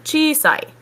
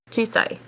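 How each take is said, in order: First: Chisai pitched high with the long ii stretched; exaggerated long vowel. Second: Chisai said softer, vowel still long; relaxed chisai with a held ii. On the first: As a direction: overstress chisai, dragging out the vowel. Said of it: "I'm just exaggerating for emphasis". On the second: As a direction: chisai quieter, less exaggerated. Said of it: "exaggerating for emphasis". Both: Shown as a demonstration.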